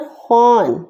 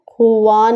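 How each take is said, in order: First: The syllable is said as one short 'khaan'. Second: The syllable is said with an added 'uw' sound. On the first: The speaker calls it right. "दस्तर खान" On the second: The speaker calls it wrong. "खुवान नहीं"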